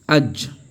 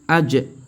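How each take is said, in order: First: The final consonant stops cleanly with no echo. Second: The final consonant is released with an echoing bounce. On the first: This is how Arabs read it in general. "chez les arabes, ils vont dire aj" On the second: This is Quranic recitation applying qalqala. "lorsque tu lis le Coran, la qalqala, tu dis aj"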